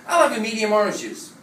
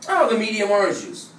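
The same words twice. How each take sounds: Both takes have the same delivery.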